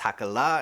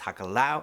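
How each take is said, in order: First: The word ends in an open 'ah' sound. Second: The word ends in an 'ow' sound. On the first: This is the form the speaker was taught. "sometimes it's Hakala" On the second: This is an equally valid alternative form. "it can also be pronounced Hakalau"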